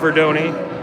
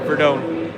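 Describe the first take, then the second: First: The name ends with a 'donny' sound. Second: The name ends with a 'done' sound. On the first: This is how the player's own team says it. The speaker calls it wrong. "their team calls him Verdoni. I don't like the Donny" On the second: This is the commentator's own preferred way. The speaker calls it right. "I like the Verdone. So I'm going to stick with my pronunciation"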